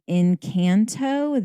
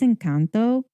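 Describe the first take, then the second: First: The word is said with English-style sounds. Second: The word is said with Spanish-style sounds. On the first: The speaker calls it wrong. "you say Encanto" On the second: The speaker calls it right. "It's Encanto, please"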